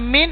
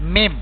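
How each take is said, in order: First: The word ends with an n sound. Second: The word ends with a closed-lip m sound. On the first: The speaker calls it wrong. "ഇവിടെ മിൻ എന്ന് പറയാൻ പാടില്ല" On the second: The speaker calls it right. "മിം ചുണ്ടിട്ട് പോടണം"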